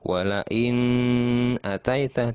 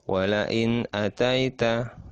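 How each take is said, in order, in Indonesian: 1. Bunyi n ditahan panjang dengan dengung sengau. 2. Bunyi n pendek dan jelas, tanpa dengung. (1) "tidak seperti itu. Nah, itu salah" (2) "seperti itu"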